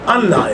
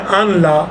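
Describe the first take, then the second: First: The n merges fully into a doubled l. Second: The n is pronounced separately before the l. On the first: This is how it is actually recited. "असल में क्या है" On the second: This is the underlying written form. "असल में क्या था"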